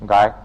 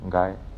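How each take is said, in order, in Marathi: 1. हा शब्द मोठ्याने आणि जोरात उच्चारला जातो. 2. हा शब्द हळू आणि शांतपणे उच्चारला जातो. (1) "जोरात उच्चारला" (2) "हळू उच्चारला"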